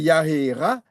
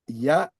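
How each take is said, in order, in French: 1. La voyelle vient après la consonne finale. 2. La voyelle vient avant la consonne finale. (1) "C'est pas Yahera" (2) "la voyelle se prononce avant le ret"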